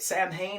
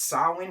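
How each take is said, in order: First: The word is sounded out as it is spelled. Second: The word is said unlike its spelling. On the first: The speaker calls it wrong. "you don't say it Samhain" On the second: The speaker calls it right. "it's Samhain"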